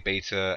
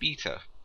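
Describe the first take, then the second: First: The word is said in an American accent. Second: The word is said in a British accent. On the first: "Americans say beta" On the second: "like in Britain, say beta"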